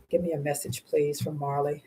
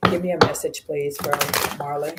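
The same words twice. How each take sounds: First: A soft, hushed second request to the guides; softer repeated plea. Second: Said in the usual way. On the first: Real, not acted.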